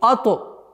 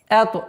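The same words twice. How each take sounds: First: The opening glottal stop is hard. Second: The opening glottal stop is soft. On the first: The speaker calls it wrong. "не ато" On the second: The speaker calls it right. "хамза мягкая"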